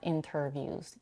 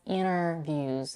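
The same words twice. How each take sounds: First: The t after the n is pronounced. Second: The t after the n is dropped. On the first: "and not interviews" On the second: "She also drops the t in the next word"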